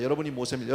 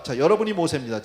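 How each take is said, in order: First: Said in the usual way. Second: 여러분이 hit loud with a falling close; preacher punches 여러분이 to the whole congregation; stress on 여러분이. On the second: Shown as a demonstration. Pastor tells listeners they are Moses, 여러분이 stressed loud.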